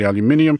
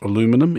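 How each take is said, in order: First: The word is said with five syllables. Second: The word is said with four syllables. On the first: The speaker calls it right. "it's definitely aluminium" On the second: The speaker calls it wrong. "it's not aluminum"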